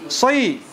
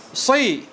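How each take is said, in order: No difference in how they are said.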